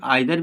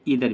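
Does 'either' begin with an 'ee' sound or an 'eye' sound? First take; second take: eye; ee. First: The first vowel sounds like 'eye'. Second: The first vowel sounds like 'ee'. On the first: "कई लोग आइदर भी कहते हैं" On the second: "कई लोग इधर भी कहते हैं"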